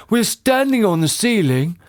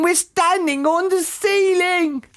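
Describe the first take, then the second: First: Astonished husband, moderately raised pitch; shocked gasp. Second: Very high, slow panicked wail; character's scream. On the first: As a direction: realise it in amazement. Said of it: "gasped Mister Twit". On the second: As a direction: shriek it in horror, drawn out. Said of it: "screamed Missus Twit". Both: A narrator's reading.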